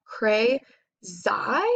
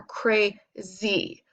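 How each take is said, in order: First: "cray, zai" in two beats, rhyming with eye; Y as long I. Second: "crazy" drawn out slowly as cray, zee; Y as long E. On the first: Teacher testing a word both ways, "zai" with long I. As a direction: try "zai" with a long I ending. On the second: Teacher testing a word both ways, "crazy" ending in zee. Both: Shown as a demonstration. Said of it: "I read it both ways".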